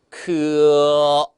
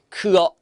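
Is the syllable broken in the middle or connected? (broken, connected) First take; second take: connected; broken. First: The two sounds are joined without a break. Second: There is a break between the two sounds. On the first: The speaker calls it right. "이 두 부분 이어지는 부분을 잘 연결을 시켜 주셔야 돼요" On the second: The speaker calls it wrong. "크어 안 되고"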